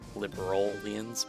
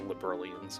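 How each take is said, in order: First: The word is carefully sounded out, part by part. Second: The word is said quickly in a casual way. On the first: It keeps the country's name audible inside the word. "I'm still trying to get the liberal part, like for the country" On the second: This is how it would naturally be said. "but I would say liberalians"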